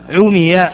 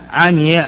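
First: The verb is voweled as a passive form. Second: The verb is voweled as an active form. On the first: The speaker calls it wrong. "هذا لحن" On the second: The speaker calls it right. "هذا الصواب"

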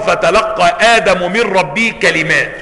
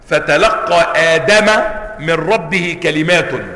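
First: Adam ends in -u; kalimat ends in -in. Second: Adam ends in -a; kalimat ends in -un. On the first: Adam is the one who receives the words. "والقراءة الأخرى" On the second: The words are what is received, by Adam. "نصب لفظة آدم مع رفع كلمات، وهذه قراءة"

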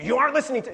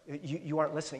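First: It is said harshly, like a rebuke. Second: It is said softly and gently.

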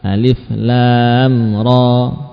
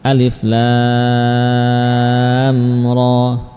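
First: The vowel in lam is held briefly. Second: The vowel in lam is drawn out long. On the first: The speaker calls it wrong. "Kalau dibaca dengan dua harokat" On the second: The speaker calls it right. "dengan memanjangkan, dengan ukuran panjang sampai enam harokat"

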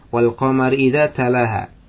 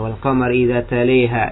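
First: The long vowel after t is an open a. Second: The long vowel after t leans toward e.

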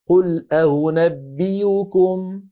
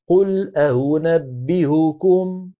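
First: The last hamza is replaced by a y sound. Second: The last hamza is softened, not fully stopped. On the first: "الوجه اللي بعده" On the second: "مع التسهيل والإبدال في الثالثة"

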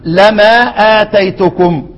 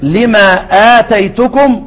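First: The first word has an a vowel after l. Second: The first word has an i vowel after l.

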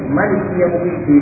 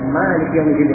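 First: The first vowel of Malik is kept short. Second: The first vowel of Malik is drawn out long. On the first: "Boleh dibaca pendek" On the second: "boleh dibaca Malik yaumiddin dengan panjang"

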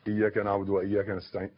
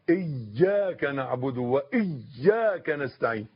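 First: The y sound in iyyaka is single, not doubled. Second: The y sound in iyyaka is doubled and held. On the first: The speaker calls it wrong. "ما تقولش" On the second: The speaker calls it right. "إذا فاتتك شدة فقد أثرت في صحة الصلاة"

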